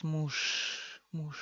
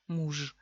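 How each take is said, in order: First: Muž said as mush; relaxed devoiced ending. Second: Muž ending in a buzzing zh, as in French j; voiced final ž. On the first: Teacher relaxing a little, devoiced ending. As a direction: let muž fade into a voiceless sh. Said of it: "y nos relajamos". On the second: Teacher showing the sound before it changes, voiced ending. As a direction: voice the ž at the end of Muž. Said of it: "Muž se convierte en sh". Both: Shown as a demonstration.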